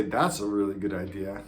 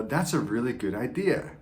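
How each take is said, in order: First: That's a really good idea, dry and falling; sarcastic. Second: That's a really good idea, rising and genuine; mean it when you say it; sincere praise. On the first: Coach showing the same words sarcastically. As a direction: say it like it's stupid. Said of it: "one means that's a stupid idea". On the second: Coach showing a sincere compliment, genuinely. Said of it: "One means that's a good idea". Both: Shown as a demonstration.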